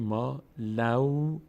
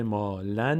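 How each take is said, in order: First: مالو slowly, ending in a held "law"; tanwin merged. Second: مالن slowly, ending on a clear "n"; unmerged tanwin. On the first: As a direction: draw مالو out with a w instead of n. («مالو» کشیده با ادغام در واو) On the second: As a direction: spell out "maa-lan" in مالن with the n sounded. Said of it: "به جای مالن". («مالن» آهسته با نونِ آشکار) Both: Shown as a demonstration.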